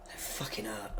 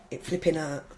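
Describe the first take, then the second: First: Whispered swear, almost voiceless; a real whispered swear, much softer; hushed swear. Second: Said in the usual way. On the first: Real, not acted. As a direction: breathe the swear out under your breath. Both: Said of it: "Oh, sorry".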